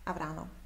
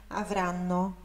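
First: The n sound is short and light. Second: The n sound is held longer and stronger. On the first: The speaker calls it wrong. "se tivesse um N só, seria avrano" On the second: The speaker calls it right. "O som é só um pouquinho mais forte do que se tivesse só uma consoante"

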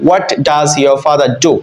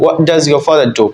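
First: The t of 'what' is clearly pronounced. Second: The t of 'what' is dropped. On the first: The speaker calls it wrong. "সাধারণত আমরা বাংলাদেশিরা বলে থাকি" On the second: The speaker calls it right. "কিন্তু নেটিভরা বলে"

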